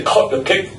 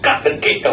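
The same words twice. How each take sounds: First: "cut" with a rounded "aw" vowel; cut as "cot". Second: "cut" with an open "ah" vowel; cut as "cat". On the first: Showing the audience what not to say, "cut" pronounced "cot". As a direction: make "cut" sound like "cot". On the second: Correcting the audience's accent, "cut" said with open "ah". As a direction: open up "cut" to a short "kaht". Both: Shown as a demonstration. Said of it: "Oh, don't say "cut the cake".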